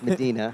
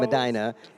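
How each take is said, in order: First: Medina is said the Texas way. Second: Medina is said the Ohio way.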